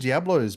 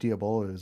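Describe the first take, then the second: First: The word is said with three syllables. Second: The word is said with four syllables. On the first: The speaker calls it wrong. "everyone calls them Diablos" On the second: The speaker calls it right. "but they're actually Diabolos"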